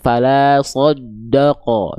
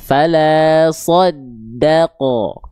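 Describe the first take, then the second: First: The 'da' syllable is pronounced thick and heavy. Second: The 'da' syllable is pronounced thin and light. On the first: The speaker calls it wrong. "jangan sampai huruf dalnya terkontaminasi oleh huruf tebal" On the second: The speaker calls it right. "ada-nya tipis"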